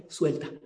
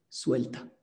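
First: Said in the usual way. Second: Whispered advice. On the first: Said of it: "¿qué nos enseñó?". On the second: Shown as a demonstration. Teacher whispering the class's last advice to students. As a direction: whisper it, the key word of the lesson. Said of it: "¿Sabes cuál es?".

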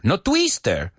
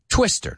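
First: "twister" as tweester with long ee; wrong twister. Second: "twister" with short i; quick short-i "twister"; English twister. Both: Shown as a demonstration.

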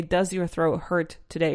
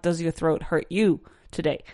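First: Said in the usual way. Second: "hurt you" added as the marked mistake; wrong version. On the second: Shown as a demonstration. Teacher models the common mistake "hurt you". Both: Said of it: "It's not".

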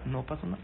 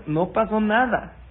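First: Said in the usual way. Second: "No pasó nada" slow, higher and louder; "nada" stressed slow, higher and louder; emphatic. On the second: Shown as a demonstration. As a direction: lean on "nada" firmly, slowly.

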